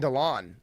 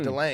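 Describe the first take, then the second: First: The last syllable sounds like 'lon'. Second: The last syllable sounds like 'lane'. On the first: This is how the broadcasters said it. The speaker calls it wrong. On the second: This is the correct name. The speaker calls it right.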